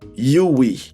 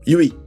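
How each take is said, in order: First: It is said at a moderate speed. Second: It is said at a faster speed. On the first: "say it really fast" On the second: "now say it even faster"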